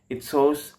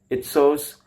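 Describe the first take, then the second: Both takes have the same delivery.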